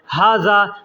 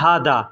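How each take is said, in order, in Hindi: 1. बीच का व्यंजन z की आवाज़ है। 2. बीच का व्यंजन d की आवाज़ है। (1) "ज़ को लोग द बोलते हैं" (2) "लोग बोलते हैं हादा"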